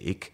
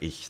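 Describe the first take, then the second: First: It is said in a Berlin accent. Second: It is said in standard German.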